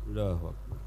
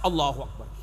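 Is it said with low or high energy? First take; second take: low; high. First: It is said weakly, without enthusiasm. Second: It is said with strong enthusiasm.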